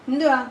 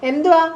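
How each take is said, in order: First: Said in the usual way. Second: Louder, higher challenge to the pet bird; changed, sterner voice. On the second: Shown as a demonstration. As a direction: demand it sharply of a sulky pet. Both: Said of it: "എന്റെ സ്വരം change ആവുമ്പോ".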